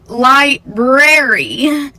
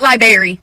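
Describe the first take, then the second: First: Both r sounds in the word are pronounced. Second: The first r sound is dropped. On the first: The speaker calls it right. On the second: The speaker calls it wrong.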